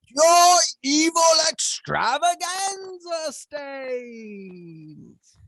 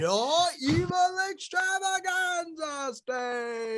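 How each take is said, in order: First: It is said very loudly and energetically. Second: It is said more quietly and calmly.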